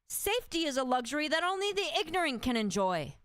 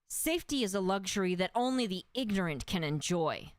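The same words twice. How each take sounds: First: The voice is at a higher, normal pitch. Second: The voice is pitched lower and deeper.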